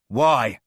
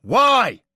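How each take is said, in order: First: Loud demand. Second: Very high, very loud yell; furious shout. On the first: Demand before repeat. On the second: Porter yells his question at the dying man, much louder. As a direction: scream the question at him. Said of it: "louder this time". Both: A narrator's reading.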